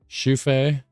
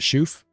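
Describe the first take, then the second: First: The final vowel sound is pronounced. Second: The final vowel sound is dropped.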